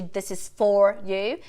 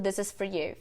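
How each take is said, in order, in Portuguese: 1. A palavra 'for' tem uma vogal plena, como em 'four'. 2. A palavra 'for' tem uma vogal reduzida, como em 'fur'. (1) "Em vez de this is for you" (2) "você pode escutar muito this is for you"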